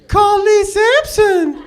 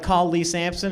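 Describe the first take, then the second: First: It is said higher-pitched, in a mocking tone. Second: It is said in a normal, plain voice. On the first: The car seems to mock the speaker. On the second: The speaker gives the car a command.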